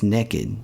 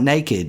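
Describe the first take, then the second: First: The first vowel sounds like 'neck'. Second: The first vowel sounds like 'nay'. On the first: The speaker calls it right. "It may be spelled N A, but it's pronounced N E" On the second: The speaker calls it wrong. "It's not naked"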